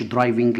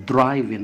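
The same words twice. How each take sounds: First: "درايفنج" said with an audible g at the end; wrong pronunciation shown. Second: "درايفن" said with the final g silent, ending on n; correct pronunciation. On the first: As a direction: demonstrate the mistake with a hard g in "درايفنج". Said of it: "لا درايفن". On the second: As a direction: model the right "درايفن", with no g at the end. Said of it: "ما هوش درايفنج". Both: Shown as a demonstration.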